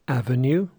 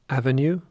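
No difference in how they are said.

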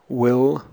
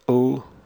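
First: The word has a full, clear vowel. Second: The word has a short, reduced vowel. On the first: "I'll read the strong and the weak form" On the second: "The weak form before consonants"

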